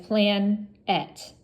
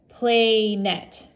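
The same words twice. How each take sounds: First: The first vowel is short, like in plan. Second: The first vowel is long, like in plane. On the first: The speaker calls it right. "read it as a closed syllable" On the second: The speaker calls it wrong. "it would make the long vowel sound"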